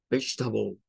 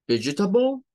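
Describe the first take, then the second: First: "vegetable" as VEJ-ta-bul, low and falling; three syllables, falling. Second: "Vegetable" as VEJ-uh-ta-bul, pitch rising; four syllables, rising. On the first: Teacher answers with the short form, three syllables. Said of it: "Tres sílabas". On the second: Teacher contrasts for learners, long form rising. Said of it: "con cuatro sílabas". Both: Shown as a demonstration.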